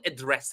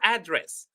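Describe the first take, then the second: First: The stress is on the second syllable. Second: The stress is on the first syllable. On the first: It is used as a verb. "if it is a verb, the second syllable is high" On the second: It is used as a noun. "If it is a noun, ... The first syllable is high"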